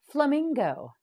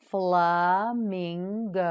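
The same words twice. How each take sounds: First: Said in the usual way. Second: Slow model word. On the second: Shown as a demonstration. Teacher to students, modelling the word very slowly. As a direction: stretch flamingo slowly, syllable by syllable. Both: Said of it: "You say it".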